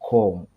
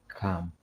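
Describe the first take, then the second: First: The word is said in a Nigerian accent. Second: The word is said in a Kenyan accent. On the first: "But the Nigerian accent is com" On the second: "like my Kenyan, don't know whether to call it accent, I say come"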